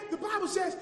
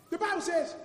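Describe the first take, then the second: No difference in how they are said.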